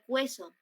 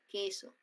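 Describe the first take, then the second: First: The word begins with a kw sound. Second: The word begins with a plain k sound. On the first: The speaker calls it wrong. "no está sonando como cueso" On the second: The speaker calls it right. "está sonando así, con K"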